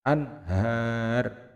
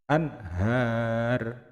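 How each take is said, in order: The two takes are said the same way.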